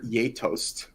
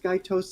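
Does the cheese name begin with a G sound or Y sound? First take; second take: Y sound; G sound. First: The name begins with a Y sound. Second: The name begins with a hard G sound. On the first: "I believe it's the proper pronunciation is" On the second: "I think it can be pronounced Guy toast"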